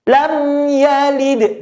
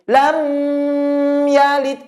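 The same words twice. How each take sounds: First: The mim sound is kept short. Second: The mim sound is held too long. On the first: The speaker calls it right. "Maka mim tidak boleh ditahan" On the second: The speaker calls it wrong. "Tidak boleh lam yalid, kelamaan. Itu namanya menah, menahan"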